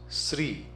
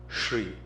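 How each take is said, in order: First: The word begins with a plain s sound. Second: The word begins with a sh sound. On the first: The speaker calls it wrong. "the pronunciation comes Sri" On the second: The speaker calls it right. "It's a palatal sound sh"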